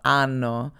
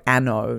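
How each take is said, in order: First: Anno with an open "ah", AH-no, drawn out; European pronunciation. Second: Anno with a short Australian "a" as in "cat"; Australian pronunciation. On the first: Co-host contrasting the original name, slow European pronunciation. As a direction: say Anno the European way, slowly, first vowel as "ah". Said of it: "you could argue that it's, it's wrong". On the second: Co-host showing the anglicised name, Australian pronunciation. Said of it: "saying it with the Australian accent". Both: Shown as a demonstration.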